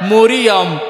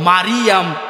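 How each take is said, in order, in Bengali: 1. তিন শব্দাংশ, শুরুতে o-র মতো স্বর। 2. তিন শব্দাংশ, শুরুতে খোলা a স্বর। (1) "সব ভুল" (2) "সব ভুল"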